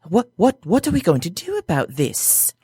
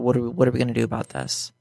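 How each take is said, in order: First: It is said in a put-on character voice. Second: It is said in his normal voice.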